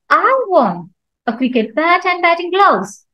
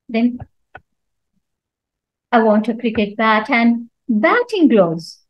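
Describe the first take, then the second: First: The stress falls on the word I. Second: The stress falls on the word batting. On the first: Nobody else wants them. "So here I'm stressing on I" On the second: It must be batting gloves, not other gloves. "So when I stress on batting"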